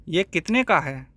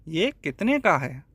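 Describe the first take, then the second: The two takes are said the same way.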